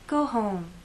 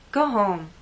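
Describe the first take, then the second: First: The tone is gentle, warm and concerned. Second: The tone is annoyed, firm and cold. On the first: The listener should rest for their own good. "I'm worried about this person's health" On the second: The listener is unwelcome and should leave. "could be said to a person who came to a party of mine uninvited"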